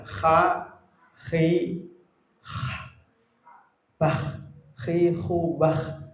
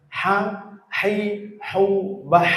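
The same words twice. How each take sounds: First: "Ha, khi, hu, bah" with every h rasped like kh; snoring kha, faulty. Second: "Ha, hai, hu, bah" with strong airy h, no rasp; clean throat ha. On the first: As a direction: snore the throat consonant in "Ha, khi, hu, bah". ("Ha, khi, hu, bah" dengan bunyi ngorok) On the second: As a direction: squeeze breath through mid-throat on "Ha, hai, hu, bah". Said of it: "Jangan sampai ada". ("Ha, hai, hu, bah" dengan ha bersih tanpa ngorok) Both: Shown as a demonstration.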